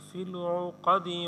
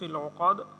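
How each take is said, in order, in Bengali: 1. বাক্যাংশটি একটি ছোট হ্রস্ব স্বরবর্ণ i দিয়ে শেষ হয়। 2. বাক্যাংশটি ব্যঞ্জনবর্ণে শেষ হয়, শেষে কোনো স্বরবর্ণ নেই। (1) "যদি পরের আয়াতের সাথে মিলিয়ে পড়ি" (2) "থামলে"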